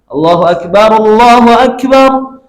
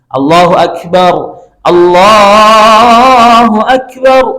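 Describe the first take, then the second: First: The two phrases are joined without a pause. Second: The two phrases are separated by a pause.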